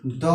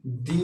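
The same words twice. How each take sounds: First: "द" ending in a short schwa; weak "द", no ee vowel; weak form. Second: "दी" with a long ee vowel; full-vowel "दी", not duh; strong form. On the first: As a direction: say "द" as duh, the reduced article the. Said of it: "weak form में". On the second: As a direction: say "दी" as dee, the emphatic article the. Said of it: "strong form में". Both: Shown as a demonstration.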